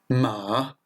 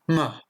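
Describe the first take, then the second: First: The pitch falls low then rises again. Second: The pitch falls sharply and is short. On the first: It means horse. "un ton descendant dans le grave, puis remontant dans les aigus" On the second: It means to insult. "un ton descendant et bref"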